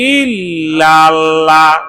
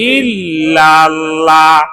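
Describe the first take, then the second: No difference in how they are said.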